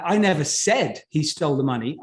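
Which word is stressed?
said. The word "said" carries the strongest stress. It was implied, not said. "I implied it, but I wrote it down. I didn't say it"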